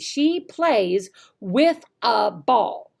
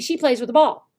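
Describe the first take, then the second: First: The sentence is said slowly and precisely. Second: The sentence is said quickly and run together. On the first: The speaker calls it right. "you have to speak slowly and precisely" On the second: The speaker calls it wrong. "It's not going to be"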